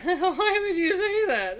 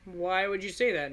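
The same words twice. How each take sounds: First: Higher, louder, slow, laughing through a big smile; smiling laugh. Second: Said in the usual way. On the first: Shown as a demonstration. Babysitter laughs off the creepy warning, smiling. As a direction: answer the girl with a grinning laugh. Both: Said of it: "this is a smile I would use for that".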